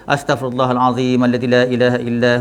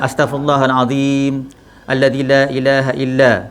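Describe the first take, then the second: First: It runs on past 'illa' without stopping. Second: It stops right after 'illa'. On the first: The meaning is kept whole. The speaker calls it right. "Atau nak baca terus" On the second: The meaning is changed by the cut. The speaker calls it wrong. "tak boleh lah"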